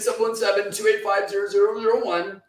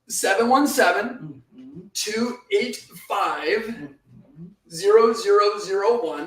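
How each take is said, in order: First: The number is said at normal speed. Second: The number is said slowly.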